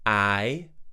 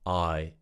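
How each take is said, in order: First: The vowel is said with spread, raised cheeks. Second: The vowel is said with relaxed, unraised cheeks. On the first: The speaker calls it wrong. "I will start with the in incorrect way" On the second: The speaker calls it right. "and then I'll say it in the correct way"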